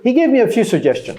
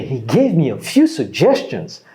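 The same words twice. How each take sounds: First: It is said in a flat, neutral tone. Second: It is said with surprised, impressed emphasis. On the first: He gave about what was expected. "C'est neutre" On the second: He gave more than was expected. "Ça veut dire que, wow"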